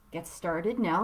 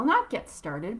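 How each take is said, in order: First: Said in the usual way. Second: Not hit and rising, a correction; stress on Not. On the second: Real, not acted. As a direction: push the word Not to correct yourself.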